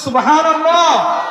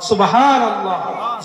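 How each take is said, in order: First: It is said loudly. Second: It is said at normal volume.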